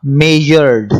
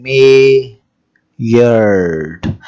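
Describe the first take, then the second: First: Said in the usual way. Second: मेजर्ड said very slowly, each syllable separated; syllables drawn out. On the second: Shown as a demonstration. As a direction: stretch मेजर्ड into its two syllables. (मेजर्ड को धीरे-धीरे, हर syllable अलग करके) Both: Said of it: "अब आप देखें कि इसमें कितनी आवाजें निकल रही हैं".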